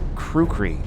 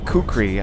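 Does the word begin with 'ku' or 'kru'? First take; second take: kru; ku. First: The word begins with a 'kru' sound. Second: The word begins with a plain 'ku' sound.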